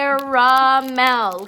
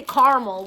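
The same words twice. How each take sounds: First: Caramel slow and loud as CARE-uh-MEL; sounded-out caramel. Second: Caramel run together as CAR-mul; shortened caramel. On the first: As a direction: sound out all three syllables of caramel. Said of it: "we're forgetting to sound it out". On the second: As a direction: drop the middle syllable of caramel, CAR-mul. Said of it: "'Cause people wanna say caramel". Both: Shown as a demonstration.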